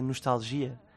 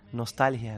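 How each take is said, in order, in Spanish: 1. La palabra se pronuncia a la portuguesa. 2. La palabra se pronuncia a la española.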